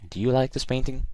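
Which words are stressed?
painting. Do you is quick; the stress falls on painting. The speaker calls it right. "I put the stress on kind of the end"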